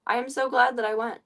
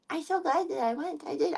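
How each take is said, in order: First: Said in the usual way. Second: Cooing to cat. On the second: Shown as a demonstration. Repeated to cat, higher.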